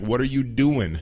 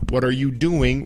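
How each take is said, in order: First: The word 'doing' ends with an 'in' sound. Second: The word 'doing' ends with a full 'ing' sound. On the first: This is the casual slang form. "We take off the G in English, as you know, in slang" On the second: This is the standard form. "instead of saying"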